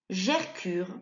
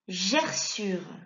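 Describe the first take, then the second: First: The middle consonant is a k sound. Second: The middle consonant is an s sound. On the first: The speaker calls it wrong. "Si tu ne mets pas le C cédille" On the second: The speaker calls it right. "permet de faire le son S devant le U"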